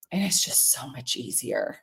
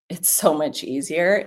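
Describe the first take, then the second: First: Dropped to a soft, low aside. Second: Said in the usual way. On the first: Real, not acted. To viewers, murmuring how easy it gets. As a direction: say it half to yourself, softer. Repeats the line softly to herself.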